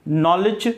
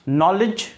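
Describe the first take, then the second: No difference in how they are said.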